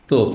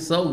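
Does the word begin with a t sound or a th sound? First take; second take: t sound; th sound. First: The word begins with a hard t sound. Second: The word begins with a soft th sound. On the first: The speaker calls it wrong. "এরা বলবে যে তোপ" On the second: The speaker calls it right. "আরবরা তো শুদ্ধ সায়ের উচ্চারণ জানে"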